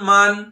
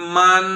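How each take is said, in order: First: The final n is short, without held nasal sound. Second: The final n is held with a nasal hum.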